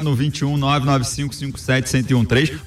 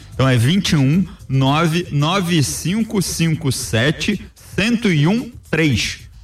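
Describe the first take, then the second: First: The number is said at a quick pace. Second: The number is said at a slow pace.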